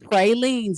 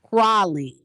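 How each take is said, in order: First: It is pronounced the way outsiders say it. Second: It is pronounced the way New Orleans locals say it. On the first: The speaker calls it wrong. "stop saying pralines" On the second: The speaker calls it right. "Say pralines"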